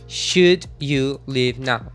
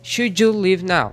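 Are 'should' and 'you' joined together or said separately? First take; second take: separately; joined. First: 'Should' and 'you' are said as separate words. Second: 'Should' and 'you' run together into one sound. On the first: "se eu fosse fazer separado" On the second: "aqui o som é um pouco mais difícil"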